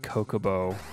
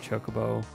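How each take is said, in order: First: The word starts with a k sound. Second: The word starts with a ch sound. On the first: The speaker calls it wrong. "I always said Kokobo" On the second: The speaker calls it right. "instead of Chocobo"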